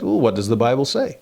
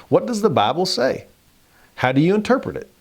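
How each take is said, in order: First: Said in the usual way. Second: A hammed-up Southern accent. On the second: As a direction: put on a Southern accent as Jesus. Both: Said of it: "I should be doing this in a Southern accent".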